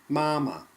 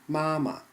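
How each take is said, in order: The two takes are said the same way.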